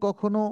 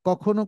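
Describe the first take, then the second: No difference in how they are said.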